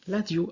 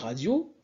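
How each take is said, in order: First: The word begins with an L sound. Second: The word begins with an R sound. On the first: "avec un L" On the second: "au lieu de dire radio"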